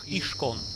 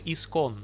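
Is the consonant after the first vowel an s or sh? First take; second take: sh; s. First: The word is said with an sh sound. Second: The word is said with an s sound.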